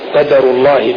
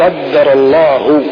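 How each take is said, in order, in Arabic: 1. صوت الدال قصير ومفرد. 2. صوت الدال مشدَّد ويُطال النطق به.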